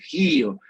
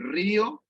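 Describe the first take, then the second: First: The word begins with a J-like sound. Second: The word begins with a plain R sound. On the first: The speaker calls it right. "como los franceses dices gío, como si fuera una J" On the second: The speaker calls it wrong. "no la dices ni río en la R"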